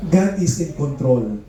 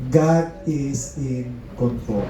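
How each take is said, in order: First: Slow, deliberate stress on each word of "God is in control"; slow emphasis. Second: Very slow, hushed "God is in control", every word weighed; slower, softer repeat. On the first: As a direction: lay down "God is in control" slowly and firmly. (dahan-dahan at mariin ang "God is in control") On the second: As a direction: let "God is in control" sink in, quieter and slower. (mas mabagal at mahinang pag-ulit ng "God is in control") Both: Shown as a demonstration.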